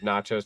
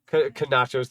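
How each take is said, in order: First: The word begins with a silent K. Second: The word begins with a sounded K.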